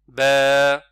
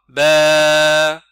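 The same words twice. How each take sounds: First: The vowel is held for two counts. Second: The vowel is stretched out far too long. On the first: The speaker calls it right. "c'est ba. C'est juste ça" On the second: The speaker calls it wrong. "c'est trop long"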